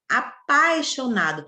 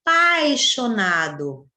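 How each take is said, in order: First: Said in the usual way. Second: Apaixonado, slow and syllable by syllable; A stressed. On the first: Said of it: "Perceba que na palavra apaixonado". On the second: Shown as a demonstration. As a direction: stretch out apaixonado with a stronger A. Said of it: "Perceba que na palavra apaixonado, você tem o A mais forte". (apaixonado devagar, com o A forte)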